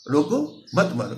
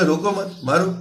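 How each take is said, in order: First: रोको alone, pause, then मत मारो together; pause after रोको. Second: Louder, higher रोको मत, pause, then मारो; pause after मत. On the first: Teacher showing listeners how it means stop, pausing after रोको before मत मारो. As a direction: break after रोको, keep मत joined to मारो. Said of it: "इसका मतलब है रुक जाओ". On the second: Teacher showing how meaning flips to keep hitting, pausing between रोको मत and मारो. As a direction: join मत to रोको, break, then order मारो. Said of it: "यानी रुक, ना रुको बल्कि मारते जाओ". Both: Shown as a demonstration.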